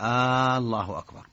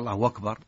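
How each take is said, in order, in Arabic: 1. الحركة الأولى تُمَدّ كأنها سؤال. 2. حركة hu تُمَدّ فتصير واوًا طويلة. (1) "هذه استفهام، كأنه يسأل" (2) "أشبع اللي أتى بواو"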